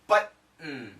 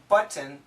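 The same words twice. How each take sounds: First: The T is cut off by a glottal stop. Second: The T is fully released with the tongue. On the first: "But with the glottal stop" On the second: "Perfect pronunciation"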